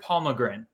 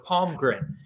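First: An extra sound is added mid-name. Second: The name has no extra middle sound. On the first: The speaker calls it wrong. "you add a random in the middle of it" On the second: The speaker calls it right. "it's just palm and grin"

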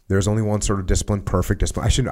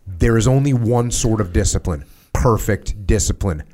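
First: It is read flatly with little energy. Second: It is read forcefully with lots of energy. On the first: "I'm reading it kind of without much vigor" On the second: "I'm going to read it again with vigor"

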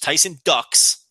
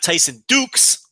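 First: The surname sounds like the word ducks. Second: The surname sounds like the word dukes. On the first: "like the animal that swims in a lake" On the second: "like the old wrestler Derek Dukes"

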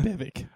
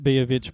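First: The name ends with a k sound. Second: The name ends with a ch sound. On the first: This is the name's real form. "It's Bevic" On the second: This form is easier to say over the phone. "I pronounce it Biovich because it's easier to say over the phone"

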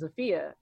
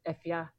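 First: The name is pronounced the English way. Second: The name is pronounced the Ashanti way. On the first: "the English version is Afia" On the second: "It's Efia"

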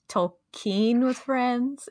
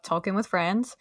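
First: The first word sounds like 'Tolkien'. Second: The first word sounds like 'talkin''. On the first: "if you want to pronounce it correctly" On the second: "the dumb American way"

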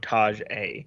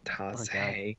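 First: The name has two syllables with a j sound. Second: The name has one syllable with a z sound. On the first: The speaker calls it right. "it does say Taj dash A" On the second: The speaker calls it wrong. "Which is how I've always pronounced it"

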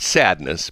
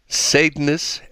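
First: The first vowel is a short sound. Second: The first vowel is a long sound. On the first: The speaker calls it wrong. "not Sadness" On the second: The speaker calls it right. "it should be a long vowel sound"

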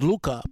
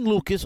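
First: The name ends on a vowel, no s. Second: The name ends with an audible s sound. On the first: The speaker calls it right. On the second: The speaker calls it wrong.

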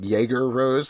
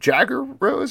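First: The first word sounds like 'Jäger' in Jägermeister. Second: The first word rhymes with 'dagger'. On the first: "like a Jaeger Meister" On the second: "Is that how you pronounce it?"

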